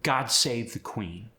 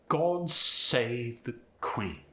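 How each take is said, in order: First: It is said in an American accent. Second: It is said in a British accent.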